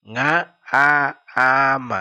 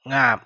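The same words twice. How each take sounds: First: "Nga a am" drawn out slowly, vowel split in two beats; syllable by syllable. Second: Said in the usual way. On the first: Shown as a demonstration. Teacher breaks down a Dinka word for learners, slow and split. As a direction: stretch "Nga a am" so learners hear each part.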